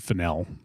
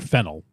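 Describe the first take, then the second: First: The name sounds unlike the herb fennel. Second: The name sounds like the herb fennel. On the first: The speaker calls it right. "it's Fennell" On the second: The speaker calls it wrong. "I mispronounced her name in the past. I would call her Fennel, like the spice or the herb"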